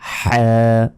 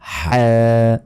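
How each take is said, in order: The two takes are said the same way.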